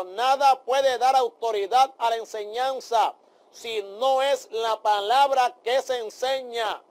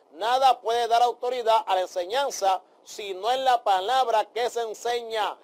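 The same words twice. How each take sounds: First: Slow, each word weighed: "nada puede dar autoridad a la enseñanza si no es la palabra que se enseña"; slow emphatic repeat. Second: Said in the usual way. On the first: Shown as a demonstration. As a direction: repeat it slowly, hammering "palabra".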